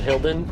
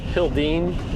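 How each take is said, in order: First: The name ends with a short 'den' sound. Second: The name ends with a long 'deen' sound. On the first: The speaker calls it wrong. "not Hilden" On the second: The speaker calls it right. "Hildene, not Hilden"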